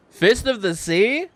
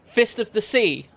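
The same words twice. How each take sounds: First: Higher, louder incredulous sneer; mocking question. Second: Higher, louder declared challenge; bold challenge. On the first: Graggins mocking the kid's challenge, loud scornful question. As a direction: throw the challenge back in scorn. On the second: Acted. Young fighter challenging the half elf in the tavern, loud and bold. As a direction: call him out like a battle cry. Hero challenges Graggins, pointing.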